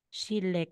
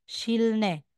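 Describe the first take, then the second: First: The middle consonants sound like a double l. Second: The middle consonants sound like l followed by n. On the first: The speaker calls it right. "na rule is magiging Shille" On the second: The speaker calls it wrong. "kung babasahin natin yan, Shilne"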